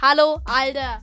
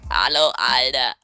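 First: It is said in his own natural voice. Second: It is said in a put-on, disguised voice.

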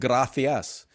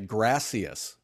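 First: It is said with a Spain Spanish accent. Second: It is said with an American English accent.

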